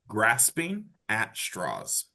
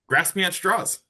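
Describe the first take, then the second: First: It is said more slowly. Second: It is said at normal speed.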